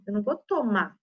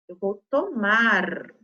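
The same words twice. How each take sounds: First: "tomar" said as "tomá", no R; dropped final R. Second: Slow "tomar" with a long, clear last R; final R pronounced. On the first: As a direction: cut the R off the end of tomar. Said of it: "gente já comendo essa letrinha". ("tomar" sem o R final) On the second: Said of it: "Tem que olhar como que é o verbo". ("tomar" com R final bem marcado) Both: Shown as a demonstration.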